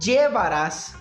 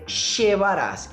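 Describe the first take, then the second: First: The word begins with a j sound. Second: The word begins with a sh sound. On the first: "Com som de uma espécie aí de D J" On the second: "uma terceira pronúncia com som de X"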